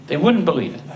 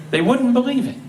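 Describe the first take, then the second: First: "wouldn't" leaned on at nearly normal pitch; stress on wouldn't. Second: "wouldn't" pitched high and punched through a laugh; "They wouldn't believe it" with "wouldn't" lifted up high; stress on wouldn't. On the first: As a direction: calmer echo stressing "wouldn't". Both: Shown as a demonstration.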